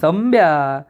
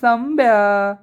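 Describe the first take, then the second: First: Gentle, affectionate calling of the name; lovingly. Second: Bright, higher joyful call of the name; happy call. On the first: Nami sweetly calling Sambya, a hint of fondness. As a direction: coax him kindly. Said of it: "नमी प्रेमाने म्हणते". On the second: Girls happily greeting Sambya at the garage, excited call. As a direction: call out the name, delighted to see him. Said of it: "एकदम आनंदात म्हणतात". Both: Retold or imitated.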